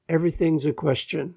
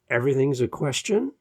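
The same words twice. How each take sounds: First: The pitch falls at the end. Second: The pitch rises at the end. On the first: The speaker sounds sure of the statement. The speaker calls it right. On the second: The speaker sounds unsure, as if searching. The speaker calls it wrong.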